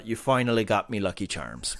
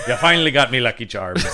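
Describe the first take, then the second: First: Low mock leprechaun taunt; lightly voiced leprechaun villain. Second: Laughing leprechaun quote; giggling through a mock leprechaun line. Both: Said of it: "pot of gold".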